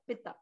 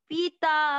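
First: The first vowel is short and quick. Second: The first vowel is stretched out long. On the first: The speaker calls it right. "Simple पिता" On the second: The speaker calls it wrong. "पिता कोई ऐसे नहीं पड़ेगा, पी मात्रा छोटी है, लंबा नहीं खींचना है"

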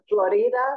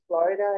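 First: The word is pronounced the Spanish way. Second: The word is pronounced the English way.

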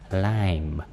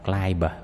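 First: The word ends on the m, no b sound. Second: A final b sound is pronounced after the m. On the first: The speaker calls it right. "cái chữ bờ này nó câm ha" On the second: The speaker calls it wrong. "đừng có đọc climb"

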